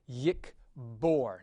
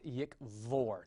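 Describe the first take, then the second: First: The middle consonant is a hard B sound. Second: The middle consonant is a soft V sound. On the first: The speaker calls it right. "It gets the hard pronunciation" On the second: The speaker calls it wrong. "not with a V"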